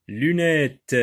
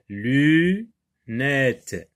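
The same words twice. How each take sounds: First: Said in the usual way. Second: LUNETTES split, long LU, then NETTES; découpage en syllabes. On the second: Shown as a demonstration. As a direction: draw out the first syllable of LUNETTES and detach the second. (« lunettes » en syllabes : luuu... nettes) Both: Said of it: "Et trois syllabes".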